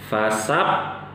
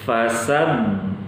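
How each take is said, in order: First: The doubled consonant sounds like a p. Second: The doubled consonant sounds like a b. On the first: The speaker calls it wrong. "fasab ini p" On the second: The speaker calls it right. "Harusnya dibaca begini"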